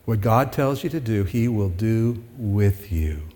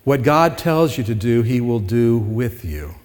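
First: Softer and slower, letting "What God tells you to do, he will do with you" land; quieter, slower repeat. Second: Said in the usual way. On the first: Shown as a demonstration. Pastor repeating his point to the congregation, softer and slower. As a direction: say it again more quietly, slowing down on "he will do with you". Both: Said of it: "repeats the line for emphasis".

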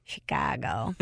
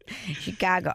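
First: Put-on thick Chicago accent on Chicago. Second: Said in the usual way. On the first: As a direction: say Chicago like a Chicago local. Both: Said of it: "Love a Chicago accent".

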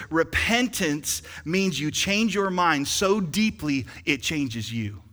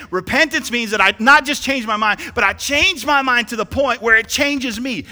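First: Said in the usual way. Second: Higher and louder, preached hard; louder restatement. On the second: Shown as a demonstration. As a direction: say it again with force. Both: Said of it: "Let me say that again".

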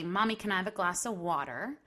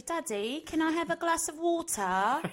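First: Said in the usual way. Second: Put-on a child's English accent, pitched much higher. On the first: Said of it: "She'll say". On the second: Daughter asking her English dad for water, high English accent. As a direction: ask daddy sweetly in an English accent. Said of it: "speak to him in an English accent".

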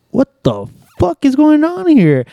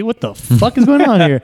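First: Much higher, slow, stretched-out disbelief; exaggerated disbelief. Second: Higher, puzzled exclamation; retold confusion. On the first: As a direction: ham up the total bafflement. Retold disbelief, second time. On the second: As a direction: act baffled by what you're seeing.

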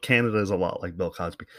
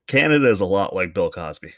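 First: Quicker, quieter run-through; quick repeat. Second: "Canada" landed firmly, each word clear; emphatic repeat. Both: Shown as a demonstration. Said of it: "what the fuck is this guy talking about".

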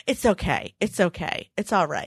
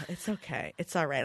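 First: Put-on soft reassuring toddler voice; calm Mom down like a tiny adult; soothing toddler. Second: Much softer, nearly breathed reassurance; hushed reassurance. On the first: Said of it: "And he would say". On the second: Retold or imitated. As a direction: murmur it softly, almost to yourself. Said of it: "I'm like".

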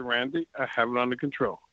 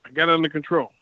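First: Softer, lower, firm repeat; calm him down, lower and softer; telling Randy again, quieter and lower; quieter insisting. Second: Said in the usual way. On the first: Retold or imitated. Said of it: "I said". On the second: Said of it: "I said, "Randy".

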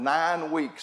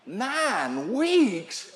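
First: Said in the usual way. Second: NINE WEEKS drawn out with a high swoop on each word; mock disbelief, pitch swinging high; incredulous echo. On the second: Husband balks at wife's nine-week suspension, incredulous.

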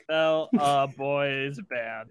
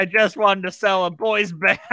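First: Slow, deliberate typing read; slow dictation. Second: Breaking into laughter mid-line; laughing. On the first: Shown as a demonstration. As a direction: spell it out slowly as you type. GM types player's line. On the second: Real, not acted. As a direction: crack up on the last words. GM reads line, cracks up.

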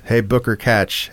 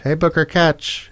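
First: Said in the usual way. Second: Same line, pitched higher. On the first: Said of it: "different pitches". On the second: Shown as a demonstration. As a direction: shift the pitch up. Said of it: "different pitches, like, up and down".

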